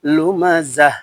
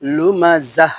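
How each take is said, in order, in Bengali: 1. শব্দটি নরম h ধ্বনি দিয়ে শেষ হয়। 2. শব্দটি নরম h ধ্বনি দিয়ে শেষ হয়।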